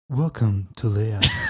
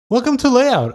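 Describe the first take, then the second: First: It is said in a put-on radio announcer voice. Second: It is said in a plain, ordinary speaking voice.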